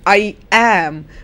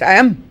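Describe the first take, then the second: First: The vowel in 'am' is full and clear. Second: The vowel in 'am' is reduced to uh. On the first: The speaker calls it wrong. "It becomes not I am" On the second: The speaker calls it right. "but I am. ... You have the inverted E, which is the uh"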